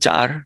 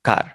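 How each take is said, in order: First: The word begins with a 'ch' sound. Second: The word begins with a 'k' sound. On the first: Many people say it this way. "কারকে অনেকে চার বলে" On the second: Most people say it this way. "Maximum বলে কার"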